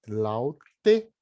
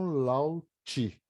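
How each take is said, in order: First: The final vowel is a clear 'e' sound. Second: The final vowel is reduced to an 'i' sound. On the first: The speaker calls it right. "Como em laute" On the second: The speaker calls it wrong. "e não lauti"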